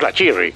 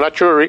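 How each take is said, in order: First: The vowel before the final syllable is i. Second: The vowel before the final syllable is u. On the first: The speaker calls it wrong. "mucho menos la Chirri" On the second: The speaker calls it right. "siempre será la Churri"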